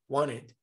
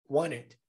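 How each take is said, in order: First: The T drops, leaving mostly an N sound. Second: The T drops, leaving mostly an N sound.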